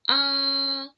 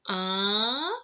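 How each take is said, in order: First: The pitch stays flat and level. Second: The pitch rises upward. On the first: "For the first tone is flat" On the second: "For the second tone is like going uphill"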